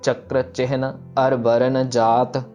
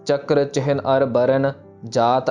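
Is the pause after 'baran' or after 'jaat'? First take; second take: after jaat; after baran. First: The pause comes right after 'jaat'. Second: The pause comes right after 'baran'. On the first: The speaker calls it right. "जो विश्राम है वो जात के ऊपर लगाना है" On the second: The speaker calls it wrong. "Burn पे विश्राम लगाते होंगे... पर वो गलत है"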